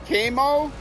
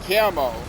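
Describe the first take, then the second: First: The first vowel is a long A. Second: The first vowel is a short A. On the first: "The first way, camo, long A" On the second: "Short A"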